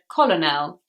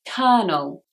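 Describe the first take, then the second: First: The first L is sounded, as spelled. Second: The first L is silent, sounding like kernel. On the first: The speaker calls it wrong. "I said colonel, which is what it looks like" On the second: The speaker calls it right. "But actually the first L is silent"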